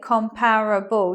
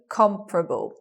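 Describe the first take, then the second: First: The word is said with four syllables. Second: The word is said with three syllables. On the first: The speaker calls it wrong. "You anticipate four syllables" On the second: The speaker calls it right. "but you get three. Comparable, with a stress on the first"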